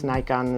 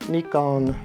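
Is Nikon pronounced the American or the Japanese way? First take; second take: American; Japanese. First: It is pronounced the American way. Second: It is pronounced the Japanese way. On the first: "how Americans say it" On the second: "how you say it in Japanese"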